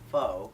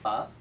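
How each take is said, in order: First: The vowel sounds like 'oh', as in 'faux'. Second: The vowel sounds like 'uh', as in 'fuck'. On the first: The speaker calls it wrong. "it's not pho, as in faux fur" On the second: The speaker calls it right. "as in the word fuck, but without the K"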